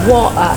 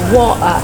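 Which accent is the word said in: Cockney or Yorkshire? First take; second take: Cockney; Cockney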